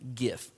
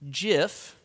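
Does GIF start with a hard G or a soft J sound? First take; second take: hard G; soft J. First: It begins with a hard G sound. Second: It begins with a soft J sound. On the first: The speaker calls it right. "I think it's pronounced GIF" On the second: The speaker calls it wrong. "like the peanut butter GIF"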